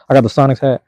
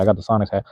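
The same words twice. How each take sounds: First: Louder and higher, proudly showing it off; excited show-off. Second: Said in the usual way. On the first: Real, not acted. To chat viewers while holding up his hat, an excited louder announcement. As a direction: hold up the hat and announce it with glee.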